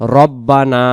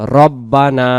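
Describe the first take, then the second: First: The first vowel is a rounded 'o'-like sound. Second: The same.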